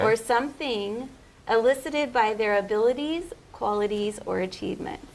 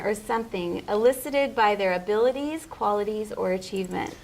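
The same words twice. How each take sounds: First: It is said slowly. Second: It is said at normal speed.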